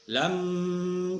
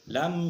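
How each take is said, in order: First: The word is drawn out and held long. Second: The word is said quickly without holding it. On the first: The speaker calls it wrong. "jangan lama-lama lamnya ... keliru" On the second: The speaker calls it right. "langsung aja"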